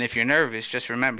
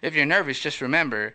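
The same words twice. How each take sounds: First: It is said in a normal voice. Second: It is said in a high, squeaky voice.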